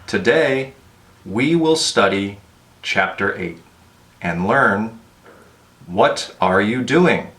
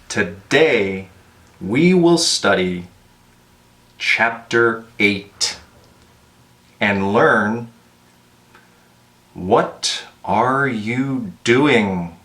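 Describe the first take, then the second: First: It is spoken at a moderate, fairly slow pace. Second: It is spoken very slowly with clear separation. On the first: "it was slow enough and clear enough" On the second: "I would recommend something more like this"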